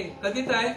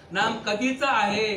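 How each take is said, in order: First: Said in the usual way. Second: Slow, drawn-out आहे held long; slow emphatic question. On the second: Shown as a demonstration. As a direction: stretch आहे slowly, as if asking the crowd. (आहे हा शब्द हळू, लांबवत)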